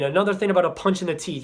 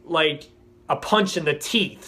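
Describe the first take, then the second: First: "punch in the teeth" rattled off fast, stress on "Another"; fast throwaway repeat of "punch in the teeth"; quick repeat. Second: "punch in the teeth" drawn out slowly, weight on "punch"; slow and heavy on "punch in the teeth"; slow emphatic phrase. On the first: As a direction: rush through "Another thing about a punch in the teeth". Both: Real, not acted.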